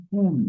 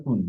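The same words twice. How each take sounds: First: কুল with a long, held u; long vowel. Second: কুল with a short u; short vowel. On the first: Teacher showing the word for lineage, drawn out. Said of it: "এটা দীর্ঘ ইকার মধ্যে উচ্চারণ". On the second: Teacher showing the word for the fruit, short. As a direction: say কুল briefly, vowel not held. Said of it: "এটা উচ্চারণ করতে হবে". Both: Shown as a demonstration.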